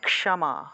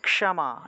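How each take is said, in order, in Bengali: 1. শুরুর যুক্তবর্ণটি k + মূর্ধন্য sh। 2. শুরুর যুক্তবর্ণটি k + মূর্ধন্য sh।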